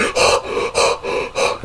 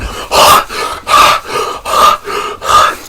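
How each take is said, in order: First: Heavy, breathy gasps in mimicry; imitated hard breathing. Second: Exaggerated heavy gasps, drawn out; mocking hard breathing. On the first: Man in torture scene breathing hard, imitated gasps. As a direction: pant hard like the man in pain. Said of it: "he was breathing hard". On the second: Mocking the man in pain, exaggerated gasps. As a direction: mimic his panting to make fun. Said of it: "[name] was just mocking him".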